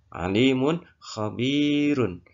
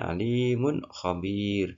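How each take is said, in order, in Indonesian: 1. Kata terakhir berakhir dengan 'un' yang dibaca. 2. Kata terakhir berhenti tanpa 'un' di akhir.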